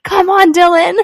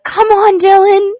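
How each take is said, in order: First: Put-on high, loud toddler cheering. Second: Put-on high, loud little kid calling out; toddler voice. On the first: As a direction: call it out like a two-year-old. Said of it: "He's, like, two years old". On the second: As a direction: squeal it like a small boy. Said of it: "the little boy I was babysitting was like".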